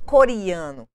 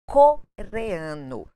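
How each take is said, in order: First: The vowel after the r sounds like i. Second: The vowel after the r sounds like e. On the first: The speaker calls it wrong. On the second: The speaker calls it right.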